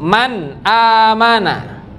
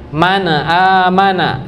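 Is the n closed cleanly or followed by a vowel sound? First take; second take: closed; vowel. First: The n is closed with no added vowel. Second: A short vowel is added after the n. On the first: The speaker calls it right. "Seharusnya dimatikan. ... langsung man amana" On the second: The speaker calls it wrong. "Kerasa ada bunyi e-nya?"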